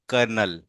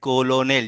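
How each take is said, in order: First: Two syllables are said, with an r sound. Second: Three syllables are said, following the spelling. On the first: The speaker calls it right. "इसका actual pronunciation कर्नल है" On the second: The speaker calls it wrong. "इसमें ऐसे लिखा जा रहा है कोलोनेल, जैसे आपने पढ़ा इसको"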